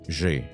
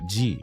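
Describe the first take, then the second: First: The letter is named with the French sound. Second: The letter is named with the English sound. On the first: "how do you say it in French?" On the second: "I have to say it properly"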